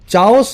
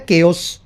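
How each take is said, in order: First: The word begins with a 'ch' sound. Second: The word begins with a 'k' sound. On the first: The speaker calls it wrong. "Hindi medium वाले बच्चे बोल देते हैं बेचारे चाओस" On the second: The speaker calls it right. "लेकिन इसको बोला जाता है केओस"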